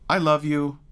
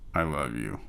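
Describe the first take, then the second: First: It sounds casually friendly and pleasant. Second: It sounds irritated and exasperated. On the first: You're nice. "you're nice" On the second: You're annoying me. "you're annoying me"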